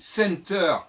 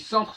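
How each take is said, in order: First: The word is pronounced the English way. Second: The word is pronounced the French way. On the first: It is not perceived as a French word. "quand je dis center, c'est pas du français" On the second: It is perceived as a French word. "si je dis centre, c'est du français"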